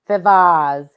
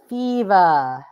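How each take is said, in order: First: The word is said like 'fivas'. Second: The word is said like 'fever'. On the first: The speaker calls it wrong. "The people say Bill fivas" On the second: The speaker calls it right. "It's fever"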